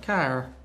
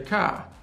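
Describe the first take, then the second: First: The word ends with an added R sound. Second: The word ends with no R sound. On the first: "but then put the R on" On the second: "it sounds like you'd say car"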